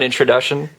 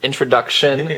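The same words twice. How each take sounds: First: It is said with an English accent. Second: It is said with a French accent. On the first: The speaker calls it wrong. "not introduction" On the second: The speaker calls it right. "I'm trying to speak French"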